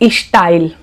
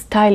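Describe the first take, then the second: First: It is said with a regional mother-tongue pronunciation. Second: It is said with a plain, neutral pronunciation. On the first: The speaker calls it wrong. "some people say style" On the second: The speaker calls it right. "It is style"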